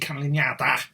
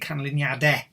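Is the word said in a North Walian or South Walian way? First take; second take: North Walian; South Walian. First: It is said the North Walian way. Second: It is said the South Walian way.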